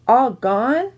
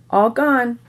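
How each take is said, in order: First: "All gone?" rising on GONE; toddler's question. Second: "All gone." falling on GONE; toddler's statement. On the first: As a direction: ask "All gone?" higher, like a puzzled toddler. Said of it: "Fudge asked again". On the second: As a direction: announce "All gone." as a little kid reporting it. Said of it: "Then he said". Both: A narrator's reading.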